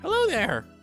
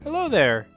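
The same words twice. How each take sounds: First: It is said in a put-on cute girl voice. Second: It is said in the speaker's natural voice.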